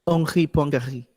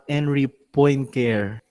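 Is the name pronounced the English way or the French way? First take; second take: French; English. First: The name is pronounced with French sounds. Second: The name is pronounced with English sounds. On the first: The speaker calls it right. "the correct pronunciation of this" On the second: The speaker calls it wrong. "that's a wrong way of pronouncing it"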